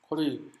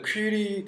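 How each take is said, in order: First: The first syllable sounds like 'kwuh'. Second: The first syllable sounds like 'kwee'. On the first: This is how it is said in Korea. "우리나라에서는 쿼리라고 합니다" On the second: This is the original pronunciation. "원래 퀴리, 퀴리라고 발음을 하지만"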